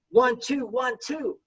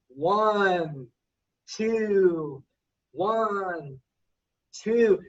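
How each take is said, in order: First: The counting is said at a quicker pace. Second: The counting is said at a slower pace.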